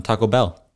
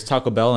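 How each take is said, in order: First: "Taco Bell" with the weight on Bell; stress on BELL. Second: "Taco Bell" with the weight on Taco; stress on TACO. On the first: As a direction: lean on "Bell", lighter on "Taco". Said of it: "emphasis on bell". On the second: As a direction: lean on "Taco", lighter on "Bell". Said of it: "emphasis on taco". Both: Shown as a demonstration.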